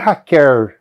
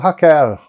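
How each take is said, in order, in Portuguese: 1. O L final tem o som regional caipira. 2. O L final tem um som regional não caipira. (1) "que não é Raquel, como se tem na variante caipira" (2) "há regiões em que o L final, de Raquel, por exemplo, né, vira um Raquel"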